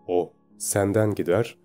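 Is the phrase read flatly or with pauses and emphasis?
with pauses. It is read with emphasis and a comma pause. The speaker calls it right. "Şimdi doğrusunu söyleyeceğim"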